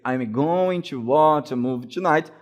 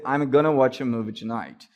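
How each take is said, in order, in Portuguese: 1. 'Going to' é falado por extenso, como duas palavras. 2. 'Going to' é reduzido a uma palavra só. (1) "ao invés de você dizer" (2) "você pode dizer"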